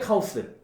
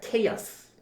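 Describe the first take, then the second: First: The first vowel is 'ah', as kah-oh-seu. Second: The first vowel is 'ay', as kay-uhs. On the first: The speaker calls it wrong. "한국인들이 좀 잘못 알고 있는 발음들이 있어" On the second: The speaker calls it right. "정확한 발음은 케이아스입니다"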